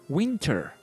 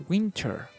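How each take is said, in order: The two takes are said the same way.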